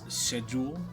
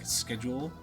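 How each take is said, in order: First: The word begins with a 'sh' sound. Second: The word begins with an 'sk' sound. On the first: This is the local non-American pronunciation. "Here it's schedule" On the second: This is the American pronunciation. "Americans pronounce schedule like schedule"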